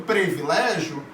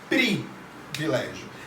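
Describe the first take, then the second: First: The first vowel sounds like e. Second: The first vowel sounds like i. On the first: The speaker calls it wrong. "Elas vão falar tanto privilégio" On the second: The speaker calls it right. "com o I"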